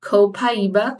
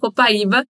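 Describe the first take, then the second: First: It is pronounced the English way. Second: It is pronounced the Portuguese way. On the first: "em inglês a gente chama de copaíba, né? A gente faz a pronúncia diferentezinha" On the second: "que na verdade é a copaíba"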